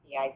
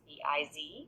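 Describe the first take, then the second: First: The last letter is said as zed, Canadian style. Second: The last letter is said as zee.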